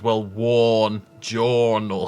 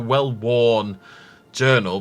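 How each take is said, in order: First: The two words are blended into one. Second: The two words are said separately and clearly.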